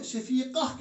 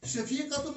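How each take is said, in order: First: शफीका ending in a breathed h, no -tun; slow शफीका closing on -ah; pausal h ending. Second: शफीकतुन with the final -tun sounded; शफीकतुन read on without pausal shortening; full -tun ending. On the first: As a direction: stop on शफीका, round ta turned to h. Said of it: "हम शफीका कहते हैं". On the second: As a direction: pronounce the whole ending of शफीकतुन. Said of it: "शफीकतुन नहीं कहते हैं". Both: Shown as a demonstration.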